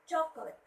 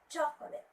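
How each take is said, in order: First: The stress is on the first syllable. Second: The same.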